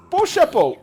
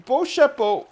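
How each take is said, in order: First: Beau chapeau pitched even higher and louder; French pronunciation. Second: Beau chapeau said high and loud with a French lilt; French pronunciation. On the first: Man repeating nice hat in French, high and loud. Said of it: "I think that's how you say it". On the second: Asked to say nice hat in French, high and loud. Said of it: "Say nice hat in French". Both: Shown as a demonstration.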